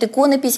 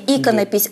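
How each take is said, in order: First: The stress falls where it falls in 'икона'. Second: The stress falls elsewhere than in 'икона'. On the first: This form follows the logic of the base word. The speaker calls it wrong. "мы же говорим «икона», значит «иконопись»" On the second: This form follows the dictionary norm. The speaker calls it right. "правильное русское произношение «иконопись»"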